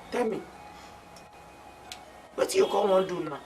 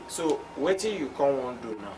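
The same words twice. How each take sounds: First: Higher, quicker repeat of the question; pressing question. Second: Said in the usual way. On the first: Acted. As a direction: press for an answer, fast and raised. Friend presses again for an answer.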